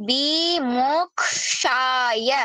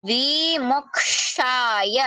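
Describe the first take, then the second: The two takes are said the same way.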